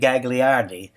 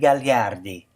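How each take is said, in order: First: The name is said with an American pronunciation. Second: The name is said with an Italian pronunciation. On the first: This is how people say it locally. The speaker calls it wrong. "Here in America, I'm sure they say Gagliardi" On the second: This is the original, more romantic way. The speaker calls it right. "the true Italian pronunciation"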